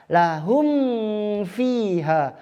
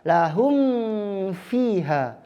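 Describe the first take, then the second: Both takes have the same delivery.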